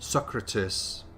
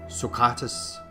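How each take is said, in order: First: The second syllable is not stressed. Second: The second syllable is stressed. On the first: The speaker calls it wrong. "you shouldn't say Socrates" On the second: The speaker calls it right. "you should say Socrates"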